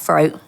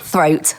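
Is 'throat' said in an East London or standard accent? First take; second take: East London; standard. First: The word is said in an East London accent. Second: The word starts with a clear th sound. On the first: The speaker calls it wrong. "That's my East London coming out" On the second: The speaker calls it right. "Throat is, is T H"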